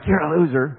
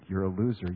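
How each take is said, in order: First: It is said with a scornful, mocking tone. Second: It is said with a sad, grieving tone. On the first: The listener is looked down on. The speaker calls it wrong. "not like you're a loser" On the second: The listener is pitied for being deceived. The speaker calls it right. "the second attitude of the grief"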